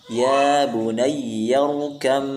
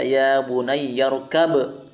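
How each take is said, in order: First: The b merges into a long nasal m. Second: The b is released with a bouncing echo. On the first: The speaker calls it right. "Jadi kita bacanya ya bunayyarkam ma'ana" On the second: The speaker calls it wrong. "tidak boleh kita baca ya bunayyarkab"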